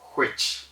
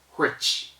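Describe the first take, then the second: First: It begins with a breathy, blown h before w. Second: The same.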